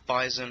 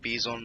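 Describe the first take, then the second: First: The word is said like the English animal name. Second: The word is said with a Russian-style pronunciation. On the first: The speaker calls it wrong. "not Bison" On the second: The speaker calls it right. "it is pronounced Bizon"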